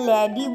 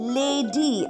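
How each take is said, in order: First: The first vowel is a short 'a' sound. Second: The first vowel is a long 'ay' sound. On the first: The speaker calls it wrong. "আমরা ল্যাডি বলছি না।" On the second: The speaker calls it right. "Long এ হবে, অর্থাৎ এ।"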